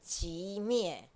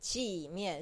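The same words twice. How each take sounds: First: It is said the Taiwanese Mandarin way. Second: It is said the Mainland Mandarin way. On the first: "台湾人讲寂灭" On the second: "中国大陆人讲寂灭"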